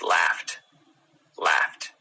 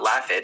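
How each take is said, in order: First: "laughed" said as laft, t ending; right laughed. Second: "laughed" with a voiced d ending; the wrong "laughed" with d. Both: Shown as a demonstration. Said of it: "it's not laughed".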